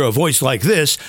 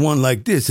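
First: Standard commercial announcer sound; old-style voiceover voice. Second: Lower, imitated African American voiceover; lightly imitated Black American accent; Black American sound. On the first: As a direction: demonstrate a traditional voiceover voice. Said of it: "you used to hear a voice like this". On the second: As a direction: put on a hint of Black American speech. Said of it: "a little bit of the black sound". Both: Shown as a demonstration.

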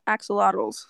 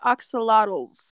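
First: Axolotls opened with a short 'a' as in axe; softer correction, Axolotls starting like 'axe'; corrected pronunciation. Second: Axolotls opened with an 'ah' vowel; mispronounced name. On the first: Host correcting a team name, Axolotls begun with 'ax'. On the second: Host reading out a team name, Axolotls begun with 'ahk'. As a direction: say Axolotls slowly, starting like 'ox'. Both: Real, not acted.

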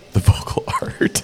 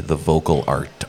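First: Laughing whisper. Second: Said in the usual way. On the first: Real, not acted. Joking about what to call his audiobook work, whispered through a laugh. Jokey rewording of voiceover.

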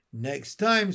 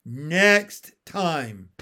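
First: Slightly raised voice; a restrained turtle yell; understated shouted threat; mild narrated scream. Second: Louder, firm "Next time" with weight on NEXT; emphatic, falling turtle warning; threat repeated. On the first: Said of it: "screamed the turtle". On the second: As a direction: drive home the threat. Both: A narrator's reading.

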